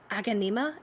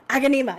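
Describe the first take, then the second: First: "Aganima" tried out hesitantly with a rising question tune; unsure pronunciation. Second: "Aganima" said firmly and louder with a falling tune; confident pronunciation. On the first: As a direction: sound out "Aganima" carefully, ending on a rise. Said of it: "I'm gonna mess up saying". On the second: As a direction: land "Aganima" proudly, stress on the first syllable. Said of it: "I did it". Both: Shown as a demonstration.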